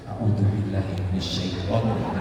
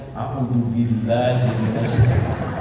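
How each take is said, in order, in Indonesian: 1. Diucapkan pelan dan lembut. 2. Diucapkan dengan keras pada volume normal.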